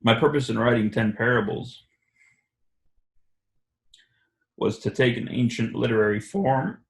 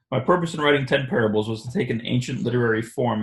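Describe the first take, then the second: First: Reading aloud, halting and emotional; choked up. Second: Said in the usual way. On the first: Real, not acted. Reading a quote to the group, choked up. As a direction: voice catches upward on the last word. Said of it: "I'm emotional". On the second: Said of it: "I'll get through it".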